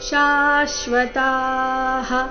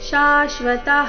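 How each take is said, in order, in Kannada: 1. ಕೊನೆಯ ಹ ಗೆ ಮೊದಲಿನ ಸ್ವರ ದೀರ್ಘ. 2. ಕೊನೆಯ ಹ ಗೆ ಮೊದಲಿನ ಸ್ವರ ಹ್ರಸ್ವ. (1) "ತಾದೀರ್ಘ ನಂತರ ವಿಸರ್ಗದ ಉಚ್ಚಾರಣೆ ... ಈ ರೀತಿ ಬರಬೇಕು" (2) "ಈ ರೀತಿ ಬೇಡ"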